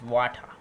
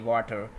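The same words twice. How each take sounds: First: The final r sound is left silent. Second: The final r sound is clearly pronounced. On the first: The speaker calls it right. "It's water, water. So the R is basically unvoiced" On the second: The speaker calls it wrong. "You you guys say water. It's not a water"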